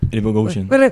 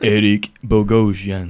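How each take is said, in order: First: The name is said quickly, at a fast pace. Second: The name is said very slowly, drawn out. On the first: "Más rápido" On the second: "¿Podés decirlo en cámara lenta, por favor?"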